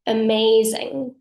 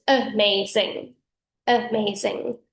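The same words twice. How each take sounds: First: AMAZING with its syllables blended smoothly together; fem legato articulation. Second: AMAZING broken into distinct syllables, uh-MAY-zing; masc staccato articulation. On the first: Voice coach demonstrating fem articulation, AMAZING in one legato flow. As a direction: let the M and Z bleed across the syllables of AMAZING. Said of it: "The syllables blend". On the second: Voice coach demonstrating masc articulation, AMAZING in staccato syllables. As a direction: separate each syllable of AMAZING like piano notes. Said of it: "whereas the masc style is".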